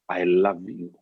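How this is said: It is said in a gentle, warm tone.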